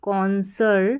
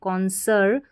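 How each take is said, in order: Both takes have the same delivery.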